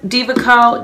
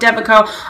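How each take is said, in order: First: The first word sounds like 'diva'. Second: The first word sounds like 'deva'. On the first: This is how people in England say it. "I think we say Diva Curl. I'm from England" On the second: This is how people here say it. "over here they say Deva Curl"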